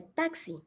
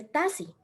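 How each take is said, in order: First: Taxi said clearly as "taksi", the k sounded; correct pronunciation. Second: Taxi said as "tasi", with no k sound; wrong pronunciation. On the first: Teacher showing job seekers the right taxi. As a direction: say taxi properly as "taksi", softer. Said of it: "se dice taxi". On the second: Teacher showing job seekers the wrong taxi. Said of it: "no se dice taxi". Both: Shown as a demonstration.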